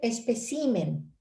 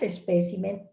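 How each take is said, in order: First: The stress is on the third syllable, ci. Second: The stress is on the second syllable, pe. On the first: The speaker calls it wrong. "Esa es una acentuación incorrecta" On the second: The speaker calls it right. "El singular es espécimen"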